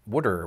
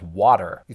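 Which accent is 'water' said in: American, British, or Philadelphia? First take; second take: Philadelphia; American. First: It is said with a Philadelphia pronunciation, like 'wooder'. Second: It is said with a general American pronunciation. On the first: "They pronounce it something like wooder" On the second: "what they pronounce as water"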